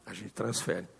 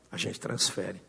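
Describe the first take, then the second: First: Softer repeat. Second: Soft repetition. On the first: Repeated refrain, softer still. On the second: Repeated refrain, dropped low. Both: Real, not acted.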